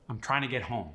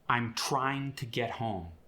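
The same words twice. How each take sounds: First: The words are shortened and run together. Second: Every word is pronounced fully.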